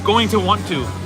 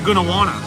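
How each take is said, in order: First: Each word is said fully and separately. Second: The words are blended into short reduced forms. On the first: The speaker calls it right. "It's going to want to" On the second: The speaker calls it wrong. "I hit you with a gonna wanna"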